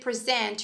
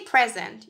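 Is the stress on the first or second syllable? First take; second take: second; first. First: The stress is on the second syllable. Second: The stress is on the first syllable.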